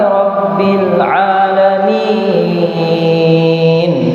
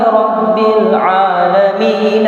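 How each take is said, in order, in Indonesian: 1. Vokal terakhir dibaca panjang sebelum berhenti. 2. Vokal terakhir dibaca pendek, menyambung ke kata berikutnya. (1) "min dibaca panjang empat harokat" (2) "seharusnya tidak dibaca panjang empat harokat"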